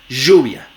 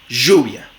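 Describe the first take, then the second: First: The first sound is a buzzing zh. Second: The same.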